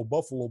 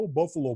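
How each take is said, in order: First: "Buffalo" dropped lower and softer; the scorn sinks away on "Buffalo"; quieter scornful echo. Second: A mildly scornful imitation of other players; hint of a sneer at "Oh, Buffalo"; dismissive mock sigh. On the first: Retold or imitated. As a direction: mutter "Buffalo" like a sorry punchline. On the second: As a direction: toss off "Oh, Buffalo" as if the city were a letdown. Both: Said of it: "players are like".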